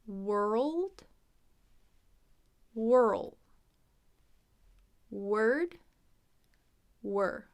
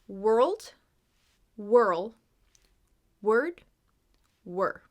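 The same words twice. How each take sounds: First: The words are said more slowly. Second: The words are said at normal speed.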